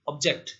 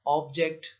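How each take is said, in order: First: ऑब्जेक्ट with the stress on जेक्ट; ऑब्जेक्ट said as a verb, ob-JECT; stress on second syllable. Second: ऑब्जेक्ट with the stress on ऑब; ऑब्जेक्ट said as a noun, OB-ject; stress on first syllable. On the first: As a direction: lean on the closing जेक्ट of ऑब्जेक्ट. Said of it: "second पे". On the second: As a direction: hit the opening ऑब of ऑब्जेक्ट. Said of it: "first syllable पर stress करें". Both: Shown as a demonstration.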